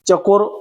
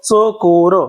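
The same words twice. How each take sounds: First: The first consonant is a 'ch'-like palatal sound. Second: The first consonant is a 'ts'-like dental-palatal sound. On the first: This is the Hindi-style pronunciation. "तो हिंदीवाला उच्चार" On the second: This is the usual Marathi pronunciation. "आपल्या मराठीमध्ये याचा उच्चार होत असतो चकोर"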